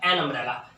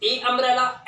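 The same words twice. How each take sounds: First: "एन umbrella" with an n before the vowel; article AN. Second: "ए umbrella" with the article as a long "ay". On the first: Teacher offering learners the other article, "एन umbrella" with AN. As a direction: say "एन" into umbrella, pitched lower. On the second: Teacher offering learners a choice of article, "ए umbrella" with A. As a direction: say "ए" before umbrella, pitched higher. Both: Shown as a demonstration. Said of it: "तो मैं क्या बोलूँगा".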